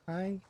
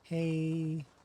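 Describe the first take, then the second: First: The vowel sounds like the English word 'high'. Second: The vowel sounds like the English word 'hey'. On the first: "Is it hey or high?" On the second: "Is it hey or high?"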